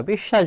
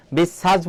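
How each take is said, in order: First: বিশ্বাস with doubled sh, as bishshash; correct sh sounds. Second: বিশ্বাস with hissed s, as bissas; wrong dental s. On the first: Teacher shows what we do say, বিশ্বাস with sh sounds. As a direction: say বিশ্বাস as "bish-shash". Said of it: "বলি". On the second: Teacher shows what we don't say, বিশ্বাস with dental s. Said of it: "বলি না আমরা". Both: Shown as a demonstration.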